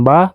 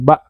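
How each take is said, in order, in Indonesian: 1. Vokalnya berakhir terbuka tanpa hamzah. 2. Vokalnya terputus oleh hamzah. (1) "bukan ba" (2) "tapi ba. Nah, karena di belakangnya ada huruf hamzah"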